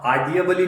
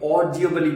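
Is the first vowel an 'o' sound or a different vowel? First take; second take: different vowel; o sound. First: The first vowel is not an 'o' sound. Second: The first vowel is an 'o' sound. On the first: The speaker calls it wrong. "यहां ऑडिबली नहीं बोलेंगे" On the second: The speaker calls it right. "ए और यू मिलकर ओ की आवाज देते हैं"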